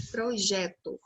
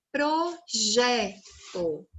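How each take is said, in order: First: Said in the usual way. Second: Projeto very slowly, in separate syllables; stress on JE. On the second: Shown as a demonstration. Teacher giving children another word, projeto slowly syllable by syllable with weight on JE. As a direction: sound out pro-JE-to, holding each syllable. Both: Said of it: "É a sílaba tônica".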